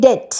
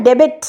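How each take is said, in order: First: ডেট with a silent b; ডেট, the b left silent; correct pronunciation. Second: ডেবিট with the b sounded, as a wrong example; ডেবিট spoken with the b, marked as wrong; wrong pronunciation. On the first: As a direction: say ডেট without the b. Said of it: "আমরা বলি ডেট". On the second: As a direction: say ডেবিট sounding the b, to show the mistake. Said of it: "আমরা তো বলি না ডেবিট". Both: Shown as a demonstration.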